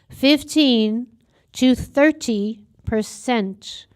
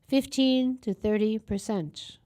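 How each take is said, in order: First: The phrase is said at louder volume. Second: The phrase is said at normal volume.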